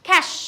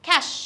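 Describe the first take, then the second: The two takes are said the same way.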